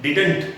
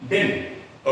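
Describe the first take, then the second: First: "didn't" as a full di-dant with both d and t sounded; common wrong didn't. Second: "didn't" squeezed to din, no t; contracted didn't. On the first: Teacher mimicking how many people say it, over-full didn't. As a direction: sound every letter of "didn't". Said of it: "लेकिन ये didn't नहीं होता". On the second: Teacher showing learners the simple form, reduced didn't. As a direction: say "didn't" as one short din. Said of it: "ये बस होता है". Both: Shown as a demonstration.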